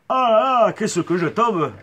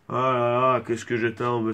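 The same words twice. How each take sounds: First: It is said livelier, with more energy. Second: It is said flatly, with little energy. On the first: The speaker calls it right. "un peu plus d'entrain" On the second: The speaker calls it wrong. "Non, pas avec un accent du sud"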